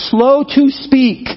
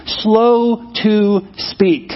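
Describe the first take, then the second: First: Slow emphasis. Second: Very slow emphasis. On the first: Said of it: "Be quick to listen". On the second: Preacher repeating the verse to the congregation, drawn out very slowly. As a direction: stretch "Slow to speak" out word by word. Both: Shown as a demonstration.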